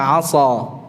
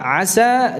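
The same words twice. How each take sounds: First: The 's' sound is heavy and thick. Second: The 's' sound is light and thin. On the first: The speaker calls it wrong. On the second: The speaker calls it right.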